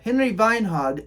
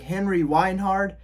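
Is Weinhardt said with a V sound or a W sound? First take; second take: V sound; W sound. First: Weinhardt begins with a V sound. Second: Weinhardt begins with a W sound. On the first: The speaker calls it right. "you pronounce the W's as V's" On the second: The speaker calls it wrong. "that is wrong"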